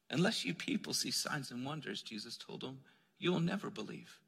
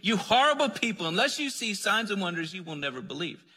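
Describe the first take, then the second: First: Much softer, gentle and patient, no edge at all; kind tone. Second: Harsh condemning. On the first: Jesus gently telling the royal official, kindly and softly. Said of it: "in the tone of kindness instead of harshness". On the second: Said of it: "trying to condemn these people". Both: Retold or imitated.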